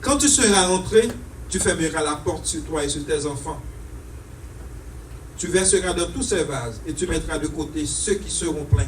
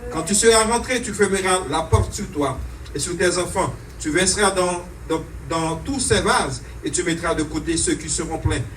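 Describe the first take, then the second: The two takes are said the same way.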